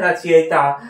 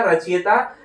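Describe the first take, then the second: First: रचयिता as "rachayita", with "i" after "y"; correct pronunciation. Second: रचयिता as "rachiyata", with "i" before "y"; wrong pronunciation. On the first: Teacher answering own question, "rachayita". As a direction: say रचयिता as "ra-cha-yi-ta". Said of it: "क्या होता है?". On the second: Teacher rejecting the misspelling, "rachiyata". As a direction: say रचयिता as "ra-chi-ya-ta". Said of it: "नहीं होता है". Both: Shown as a demonstration.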